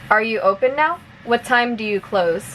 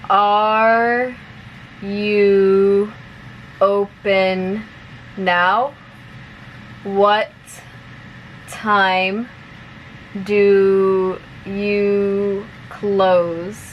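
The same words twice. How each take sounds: First: The sentences are spoken at a fast pace. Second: The sentences are spoken at a slow pace. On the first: "one more time at normal speed" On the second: "I'll say it slowly first"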